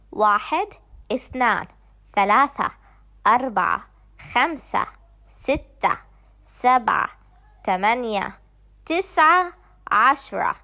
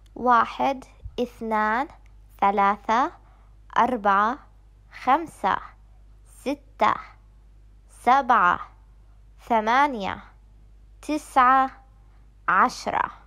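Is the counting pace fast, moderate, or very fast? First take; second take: fast; moderate. First: The numbers are counted at a fast pace. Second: The numbers are counted at a moderate pace.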